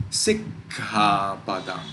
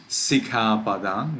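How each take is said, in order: First: Sikkhapadam slow, with a long stop after sik; pause on double consonant. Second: Sikkhapadam run through as si-khapadam, no stop; single consonant. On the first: Teacher showing the right reading, sikkhapadam with the k held. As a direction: get stuck on the kk of sikkhapadam. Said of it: "It is sikkhapadam". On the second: Teacher showing the wrong reading, sikkhapadam with no pause at the k. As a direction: say sikkhapadam with one short k. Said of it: "We do not read". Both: Shown as a demonstration.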